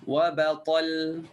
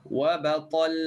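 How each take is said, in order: The two takes are said the same way.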